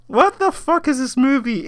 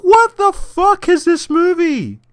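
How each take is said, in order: First: Said in the usual way. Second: High, slow stunned question; slow disbelief. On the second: Retold or imitated. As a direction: drag it out in disbelief. Reacting to the movie.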